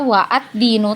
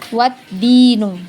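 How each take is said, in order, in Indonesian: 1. Hamzah memisahkan wa dan ad. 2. Wa langsung menyambung ke ad tanpa hamzah. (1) "kita tidak baca wa ad-dinu" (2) "tapi wad-dinu"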